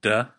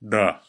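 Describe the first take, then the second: First: "duh" with an English D at the ridge behind the teeth; "duh" with a plain English D; English D sound. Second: "duh" with the tongue farther back past the ridge, a louder stop; "duh" with a firm Klingon D; Klingon D sound. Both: Shown as a demonstration. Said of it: "And again".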